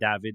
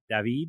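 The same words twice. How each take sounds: First: The name is said with a Polish pronunciation. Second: The name is said with a Spanish pronunciation. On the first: "David is more Polish" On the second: "David is in Spanish"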